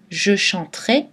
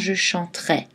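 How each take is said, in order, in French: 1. La voyelle finale est un e fermé. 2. La voyelle finale est un e ouvert. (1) "qui théoriquement devrait être prononcé et" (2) "devrait être prononcé différemment"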